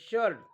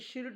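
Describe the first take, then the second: First: The vowel sounds like 'er' before the r. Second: The vowel sounds like 'i' before the r. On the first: The speaker calls it right. "आयचा उच्चार अ होतो" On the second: The speaker calls it wrong. "आपण शिर्ट म्हणतो का? नाही"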